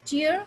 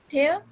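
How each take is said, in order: First: "Tear" said TEER, with an ee sound; long ee vowel in "Tear"; tear as crying. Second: "tear" said TAIR, with an eh sound; tear as ripping. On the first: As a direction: say "Tear" to rhyme with ear. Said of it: "जो आपके आंसू हैं". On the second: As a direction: say "tear" to rhyme with air. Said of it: "यानी फाड़ना". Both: Shown as a demonstration.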